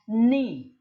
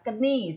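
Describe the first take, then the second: First: The word starts with n; no k sound. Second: A k sound is pronounced before the n. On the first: The speaker calls it right. "K-nya itu tidak terbaca" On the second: The speaker calls it wrong. "tidak dibaca keni seperti itu ya"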